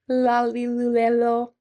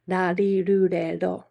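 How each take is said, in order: First: The consonant is a clear L sound. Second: The consonant is a quick tongue tap. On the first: The speaker calls it wrong. "not singing" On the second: The speaker calls it right. "Right in the middle"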